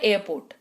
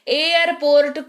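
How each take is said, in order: First: Some sounds in the word are left silent. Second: Every sound in the word is fully pronounced. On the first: The speaker calls it right. "कुछ चीजें silent हो जाती है" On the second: The speaker calls it wrong. "एयरपोर्ट कोई नहीं बोलता"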